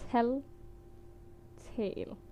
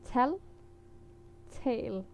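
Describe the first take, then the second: No difference in how they are said.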